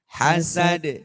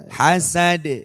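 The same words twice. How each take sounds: Both takes have the same delivery.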